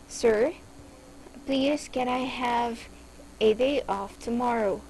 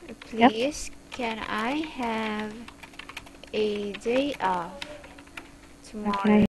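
First: The sentence is spoken at a fast pace. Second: The sentence is spoken at a slow pace.

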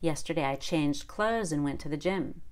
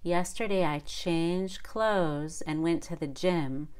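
First: The sentence is spoken fast. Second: The sentence is spoken slowly. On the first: The speaker calls it right. "it needs to be pretty fast" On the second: The speaker calls it wrong. "If I did that slowly, ... that sounds wrong"

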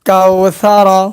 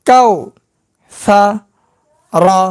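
First: The syllables are joined into one smooth word. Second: The syllables are said separately with breaks. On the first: "একসঙ্গে উচ্চারণ" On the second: "ভাঙ্গা ভাঙ্গা উচ্চারণ"

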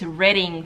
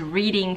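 First: The first syllable sounds like 'red'. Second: The first syllable sounds like 'reed'. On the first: The speaker calls it right. "but it's" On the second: The speaker calls it wrong. "I really thought it was"

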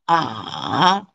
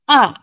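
First: The syllable is said with the third tone. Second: The syllable is said with the fourth tone. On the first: "third tone" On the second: "fourth tone"

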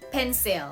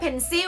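First: The tongue lifts for an L at the end. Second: The word ends without a clear L sound. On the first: The speaker calls it right. "กระดกลิ้นขึ้นมาตอนท้าย" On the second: The speaker calls it wrong. "ไม่ใช่"

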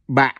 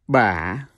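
First: The pitch drops low and cuts off abruptly. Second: The pitch dips down and then rises. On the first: "The one with the dot is pronounced as Ba" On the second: "The third one is Yau Hỏi. See that question mark? So you pronounce it as Ba"

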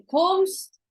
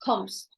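First: The vowel is held long. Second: The vowel is said short. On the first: The speaker calls it wrong. "не kommst" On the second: The speaker calls it right. "то цей звук буде короткий"

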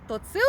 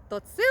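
No difference in how they are said.

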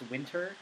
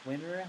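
First: The t sound in the middle is pronounced. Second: The t sound in the middle is dropped. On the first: The speaker calls it right. "it's actually pronounced winter" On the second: The speaker calls it wrong. "not winter, like a lot of people say"

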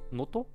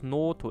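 First: The first O vowel is short. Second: The first O vowel is drawn out long. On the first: "Ist es wirklich nur no no Noto?" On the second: "also mit einem langgezogenen O"

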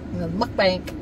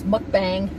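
First: The word ends with a hard k sound. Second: The word ends with a nasal ng sound. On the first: The speaker calls it wrong. "she always calls it mukbank" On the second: The speaker calls it right. "It's mukbang"

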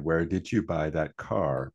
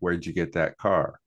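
First: It is said carefully in full form. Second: It is said fast with reduced words.

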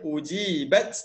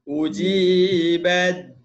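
First: The final t is clearly sounded before a stop. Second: The final t merges into the following d. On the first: The reader stops after this word. "Kalau berhenti bolehlah bunyi ta ni" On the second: The word runs on into the next word. "Ba terus bunyi, terus masuk baca dal"

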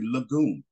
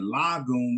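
First: The first vowel is rushed and reduced. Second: The first vowel is said fully. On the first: The speaker calls it right. "we say lagoon. ... It's rushed" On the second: The speaker calls it wrong. "Instead of saying lagoon"

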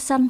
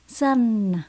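First: The final n sound is not clearly pronounced. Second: The final n sound is clearly pronounced. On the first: The speaker calls it wrong. "Đừng có son, son, son thì nó không đúng nhé" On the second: The speaker calls it right. "các bạn phải lưu ý chữ N nhé"

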